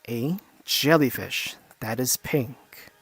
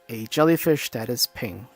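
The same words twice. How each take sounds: First: It is said slowly and paced out. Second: It is said at a normal speed. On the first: "we're gonna slow it down. We're gonna basically pace it out" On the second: "We're not gonna slow it down"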